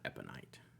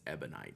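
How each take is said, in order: First: The consonant after the first vowel is P. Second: The consonant after the first vowel is B. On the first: The speaker calls it wrong. "not a P" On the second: The speaker calls it right. "Ebonite is with a B"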